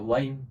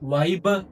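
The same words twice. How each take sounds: First: The final b is softened, nearly unvoiced. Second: The final b is fully voiced. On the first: The speaker calls it right. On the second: The speaker calls it wrong.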